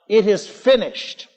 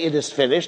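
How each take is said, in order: First: It is cried out as a strong triumph. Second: It is said in a despairing, despondent way.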